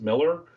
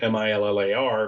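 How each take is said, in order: First: The name ends with a reduced 'er' sound. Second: The name ends with a full 'ar' sound. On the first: The speaker calls it right. "but it's pronounced Miller" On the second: The speaker calls it wrong. "Everyone wants to call Miles Miller Millar because it's spelled M-I-L-L-A-R"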